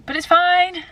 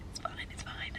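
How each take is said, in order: First: High, raised "it's fine"; forced cheerful. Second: Very quiet, voiceless whisper; whispered reassurance. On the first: Vlogger brushing off a rough luteal phase, high and insistent. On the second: Vlogger reassuring herself about a rough day, whispered. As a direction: whisper it to yourself after a sigh. Muttered self-reassurance after a sigh. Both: Real, not acted.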